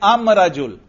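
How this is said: The article is pronounced 'am' before rajul. This is the Himyar tribe's dialect form. "वो कहते हैं अम रजुल"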